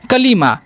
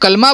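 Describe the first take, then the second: First: The word is said in three syllables. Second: The word is said in two syllables. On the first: The speaker calls it right. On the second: The speaker calls it wrong.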